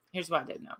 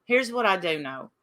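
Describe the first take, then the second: First: Softer pointed repeat; quiet repeat. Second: Said in the usual way. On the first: Real, not acted. To chat, repeating the point in a much softer voice. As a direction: drop the volume and press it home.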